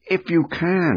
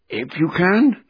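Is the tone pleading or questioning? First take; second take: pleading; questioning. First: It is said in a pleading, desperate tone. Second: It is said in a questioning, challenging tone. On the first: The speaker doubts it can be done but begs anyway. "he's pleading" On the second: The speaker challenges the doubt that it can be done. "my version's got a question mark here"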